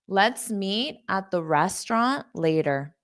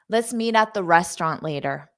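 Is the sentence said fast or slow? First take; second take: slow; fast. First: The sentence is said slowly and carefully. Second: The sentence is said quickly with reduced sounds. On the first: "I'll say it slow" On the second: "I'll say it fast"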